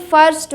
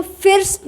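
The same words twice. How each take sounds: First: फर्स्ट with an open "uh" vowel; correct "a" vowel. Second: फिर्स्ट with an "ih" vowel, as spelt; wrong short-i vowel. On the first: Teacher correcting the word, फर्स्ट with an "a" sound. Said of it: "इसको फर्स्ट बोलेंगे". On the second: Teacher showing what not to say, फिर्स्ट with an "ih" sound. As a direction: say फिर्स्ट with the i of "ill". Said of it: "फिर्स्ट नहीं बोलेंगे". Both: Shown as a demonstration.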